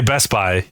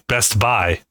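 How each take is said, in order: First: "Best Buy" run together, the t swallowed; ordinary pronunciation. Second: "Best Buy" slowed into two separate words; over-separated pronunciation. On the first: Shown as a demonstration. Friend showing the usual way, "Best Buy" run together. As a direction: say "Best Buy" quickly as "Bes-buy". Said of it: "you don't say Best Buy". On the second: Retold or imitated. Friend mimicking his co-host, "Best Buy" slow and separated. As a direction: space out "Best Buy", each word fully sounded. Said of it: "A little different".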